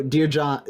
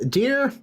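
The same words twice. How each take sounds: First: Said in the usual way. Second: "Dear," lifted high and left hanging before a pause; pause after Dear. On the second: Shown as a demonstration. Letter opening read to John, with a hanging pause after "Dear,". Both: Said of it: "I love the little pause".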